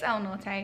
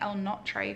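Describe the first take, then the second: First: The r comes before the t. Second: The t comes before the r. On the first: The speaker calls it right. "it's El Norte" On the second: The speaker calls it wrong. "I was saying El Notre for some reason"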